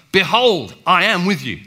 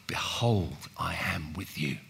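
First: Loud, higher ringing declaration; emphatic proclamation. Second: Whispered, then low and soft; gentle whispered reassurance; whispered promise. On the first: Retold or imitated. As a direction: proclaim it with force. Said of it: "emphatic terms". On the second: Shown as a demonstration. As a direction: whisper it tenderly.

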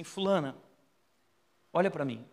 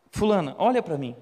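First: Said in the usual way. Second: Put-on louder, commanding call to the girl; firmer call. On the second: Pastor calls the possessed girl again, louder and firm. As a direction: raise the voice and demand her attention.

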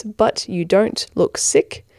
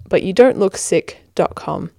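First: "but you don't look sick" said slowly, word by word; slow spelling out. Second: Said in the usual way. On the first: Shown as a demonstration. Giving listeners the web address, slow and deliberate. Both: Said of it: "all one word".

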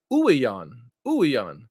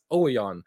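First: "Ouwejan" opened with OO, "OO-ee-yahn"; corrected pronunciation. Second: "Ouwejan" opened with an OH sound, "OH-ee-yahn"; mispronunciation. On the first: Host teaching co-host the right way, "Ouwejan" said as "OO-ee-yahn". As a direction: say "Ouwejan" carefully, starting on "oo". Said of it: "and it's". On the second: Host admitting his old mistake, "Ouwejan" said as "OH-ee-yahn". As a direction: say "Ouwejan" wrongly, starting on "oh". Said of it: "I've been pronouncing his name". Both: Shown as a demonstration.

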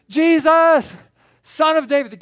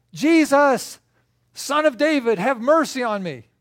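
First: Very high, full-force shout; yelling even louder. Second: High, loud desperate call; yelling. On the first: Blind man shouts over his friends, louder yell. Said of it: "the louder he gets". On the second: Blind man calls to passing Jesus, yelling. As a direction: yell out for mercy across a crowd. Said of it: "and so he starts yelling". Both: Acted.

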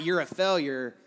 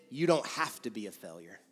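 First: Condemning voice. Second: Softer and lower, kindly; soft voice of conviction, lower and gentler; gentle encouragement. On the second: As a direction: reassure quietly. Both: Shown as a demonstration. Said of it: "You see the difference?".

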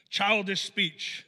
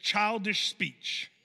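First: Put-on Childish speech repeated slowly, hitting childish; slow repeated heading. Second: Put-on childish speech said slowly, each word weighted; slow emphatic point. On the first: Pastor repeating point slowly for notes. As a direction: drive the heading home slowly. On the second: Pastor to note-takers, slow stressed heading. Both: Shown as a demonstration. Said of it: "the first thing is this".

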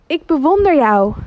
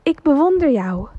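First: Loud, high enthusiastic shout; enthusiastic call. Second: Enthusiastic echo. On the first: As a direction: call out with a big breath to the mountains. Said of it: "hij roept naar de bergen". (vader roept enthousiast en luid naar de bergen) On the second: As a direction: answer back like a distant echo. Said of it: "met hetzelfde enthousiasme". (de echo antwoordt wat zachter) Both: Acted.

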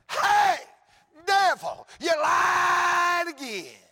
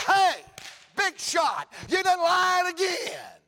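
First: High, full-force shout with long stretched words; taunting shout. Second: High, loud jeer with stretched last words; taunting shout. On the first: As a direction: holler it in triumph at an enemy. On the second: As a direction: shout down a big shot in triumph. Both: Acted. Preacher telling off the devil, taunting triumphant shout.

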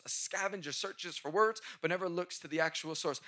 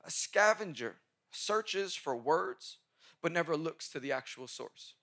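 First: Said in the usual way. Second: Slow, spaced dictation pace; each word laid out for note-taking. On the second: Shown as a demonstration. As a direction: read it slowly so they can write it down. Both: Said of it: "please write this down".

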